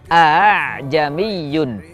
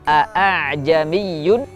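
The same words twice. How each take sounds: First: The second glottal stop is softened toward a vowel. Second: The second glottal stop is pronounced fully and clearly. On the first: The speaker calls it right. "hamzah kedua dibaca antara hamzah dan alif" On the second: The speaker calls it wrong. "membaca dengan jelas hamzah yang kedua"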